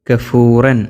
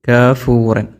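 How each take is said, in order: Both takes have the same delivery.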